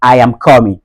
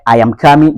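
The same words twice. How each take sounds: First: COMING as "KAW-min" in a Nigerian accent; rounded "aw" in coming, Nigerian style. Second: COMING as "KAH-min" in a Ghanaian accent. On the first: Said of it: "Du côté nigérian". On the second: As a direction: open "ah" in coming, Ghanaian style. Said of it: "ghanéen". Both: Shown as a demonstration.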